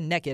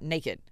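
First: It is said the Southern way, like nekkid. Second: It is said the standard way, like nay-kid.

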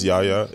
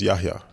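First: The middle H sound is silent. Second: The middle H sound is pronounced. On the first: "Everyone says Yahya" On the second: "if you ask how my name is pronounced, it's Yahya. ... So the H is not silent"

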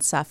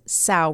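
First: The word rhymes with tough, ending in an f sound. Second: The word rhymes with cow, ending in a vowel. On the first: The speaker calls it right. "rather than suff" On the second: The speaker calls it wrong. "familiar with plow mispronounced it as sow"

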